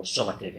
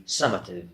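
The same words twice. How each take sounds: First: Summative said lightly the American way; a quiet aside giving summative in American English; American pronunciation. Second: Said in the usual way. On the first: Shown as a demonstration. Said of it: "in American pronunciation". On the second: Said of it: "or summative in American pronunciation".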